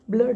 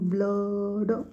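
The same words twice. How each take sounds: First: The word is said at normal conversational speed. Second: The word is said slowly with a stretched vowel. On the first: "आपण बोलताना blood म्हणून म्हणतो" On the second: "जर slowly आपण बघायला गेलं तर अला जो खेचतोय"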